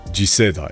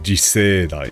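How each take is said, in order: First: The middle 'se' vowel is kept short. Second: The middle 'se' vowel is drawn out long. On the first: The speaker calls it right. "But that's not right, it's" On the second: The speaker calls it wrong. "I keep wanting to say it with more of an, like, an extended se"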